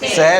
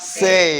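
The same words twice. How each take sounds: First: The vowel is a plain short 'eh' sound. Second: The vowel glides as a full 'ay' sound. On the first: The speaker calls it wrong. "പറയാന്നുള്ളതിന് സേ അല്ല" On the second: The speaker calls it right. "എവിടെയൊക്കെ എ കാണുന്നു അവിടെയൊക്കെ എ എന്ന് പറയണം"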